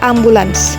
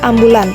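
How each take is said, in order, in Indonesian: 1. Kata ini berakhir dengan bunyi s di akhir. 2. Kata ini berakhir tanpa bunyi s di akhir. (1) "padahal yang benarnya ambulans" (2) "ambulans itu bacanya ambulan"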